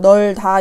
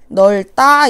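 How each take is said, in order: First: The second syllable starts with a plain d sound. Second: The second syllable starts with a tense tt sound. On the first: The speaker calls it wrong. "이렇게 발음 안 하죠?" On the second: The speaker calls it right. "이렇게 발음한다고"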